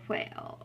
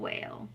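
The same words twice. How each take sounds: First: The w starts with a breathy h sound. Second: The w has no breathy h sound. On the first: The speaker calls it right. "I don't say" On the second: The speaker calls it wrong. "I just say"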